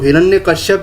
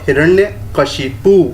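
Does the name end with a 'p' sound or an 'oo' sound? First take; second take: p sound; oo sound. First: The name ends in 'shyap' with a final p. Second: The name ends in 'shipu' with a final oo. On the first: The speaker calls it wrong. "यहाँ पे mistake कर देते हैं" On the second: The speaker calls it right. "जो सही word है वो हिरण्यकशिपु होगा"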